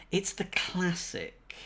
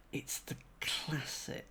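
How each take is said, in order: First: Said in the usual way. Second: Whispered, softer and slow. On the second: Shown as a demonstration. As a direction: breathe it like a secret to yourself.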